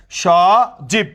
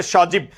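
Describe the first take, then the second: First: সজীব split as "sho... jib"; syllable by syllable. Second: Said in the usual way. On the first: Shown as a demonstration. Teacher showing students the breath units, সজীব broken in two. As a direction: stretch the first syllable of সজীব, pause, then "jib". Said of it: "এক নিঃশ্বাসে যতটুকু উচ্চারিত হয়". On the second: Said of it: "আমার, আহ, নামের মধ্যে একটা অংশ".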